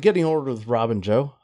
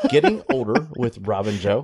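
First: The words are mumbled and run together. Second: The words are articulated clearly and distinctly. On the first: The speaker calls it wrong. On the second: The speaker calls it right.

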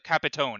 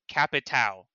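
First: The word ends with an n sound. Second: The word ends without an n sound. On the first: "he's like, Capitone" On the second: "there's no N in there. It's just, it looks like, it's like C-A-P-I-T-A-O"

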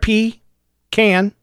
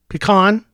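First: The second syllable sounds like 'can'. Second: The second syllable sounds like 'con'. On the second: "That would be P-E-C-O-N"

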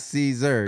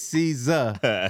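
First: The name is said like the salad. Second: The name is not said like the salad. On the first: This is how others mistakenly say it. The speaker calls it wrong. "Like Caesar salad" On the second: This is the name as its owner says it. The speaker calls it right. "my shit is Caesar"

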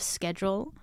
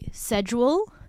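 First: It uses the everyday, non-older-Australian pronunciation. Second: It uses the older Australian pronunciation. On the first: This is how most others say it. "instead of schedule" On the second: This is how older Australians say it. "only like old Aussie people say"

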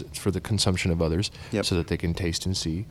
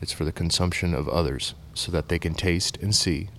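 First: The sentence is spoken at a normal, quicker pace. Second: The sentence is spoken at a slower, deliberate pace.

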